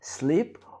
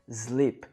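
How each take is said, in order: First: The word begins with a hissing s sound. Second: The word begins with a buzzing z sound. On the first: The speaker calls it right. "você deve colocar o som de S" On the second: The speaker calls it wrong. "com o som de Z"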